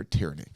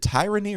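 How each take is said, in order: First: "tyranny" said with TEER as first syllable; short-i pronunciation. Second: "tyranny" said with TIE as first syllable; long-i pronunciation. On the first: Host offering co-host the other way, "tyranny" as TEER-uh-nee. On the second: Host asking co-host which way to say it, "tyranny" as TIE-ruh-nee. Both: Shown as a demonstration. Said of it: "do you say tyrant or".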